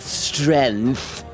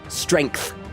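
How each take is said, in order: First: No g sound is heard before the th. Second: A g sound is heard before the th. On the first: The speaker calls it wrong. "not strength" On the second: The speaker calls it right. "There's a G in that word"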